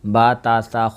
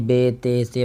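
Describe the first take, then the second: First: The letter names end in an 'a' vowel. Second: The letter names end in an 'e' vowel. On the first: The speaker calls it right. "ये अरबी लहजा है" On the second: The speaker calls it wrong. "ये उर्दू लहजा है"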